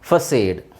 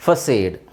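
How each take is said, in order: First: The middle consonant is an s sound. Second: The same.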